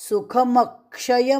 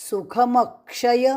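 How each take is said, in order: Both takes have the same delivery.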